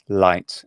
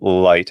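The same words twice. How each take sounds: First: The L is clear and bright, like Italian. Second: The L is slightly dark, tongue back raised. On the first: "if it's R P, it's it's a light" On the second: "as a northeastern United States speaker of English, it's it's a l- light and it's slightly velarized"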